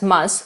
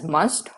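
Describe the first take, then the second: First: The final t sound is dropped. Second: The final t sound is pronounced. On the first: "with the "t" being silent" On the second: "pronounced as "must" when it is placed before vowel sounds"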